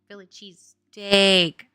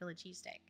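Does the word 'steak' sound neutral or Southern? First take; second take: neutral; Southern. First: It is said carefully without a Southern accent. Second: It is said casually with a Southern accent. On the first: The speaker calls it right. "If I say Philly cheese steak, then it would be fine" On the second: The speaker calls it wrong. "I get screwed"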